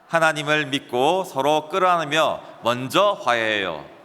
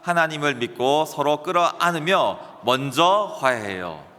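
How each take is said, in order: First: 끌어안으며 and 먼저 get no special emphasis. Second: 끌어안으며 and 먼저 are clearly emphasized.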